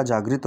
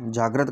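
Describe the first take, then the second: First: Second जागृत said "jaag-rit", with "i"; correct form. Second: First जागृत said "jaag-rat", with "a"; misspelled form. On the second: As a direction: read जागृत with "ra" in the second syllable. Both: Shown as a demonstration. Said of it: "विकल्पों में शेष का शुद्ध रूप".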